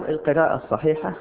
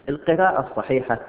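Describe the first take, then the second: The two takes are said the same way.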